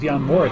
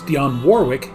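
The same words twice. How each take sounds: First: The middle W in Warwick is silent. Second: The middle W in Warwick is pronounced. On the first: This is how the name is said in England. "they don't pronounce the W" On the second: This is how the name is said in the United States. "named in the United States"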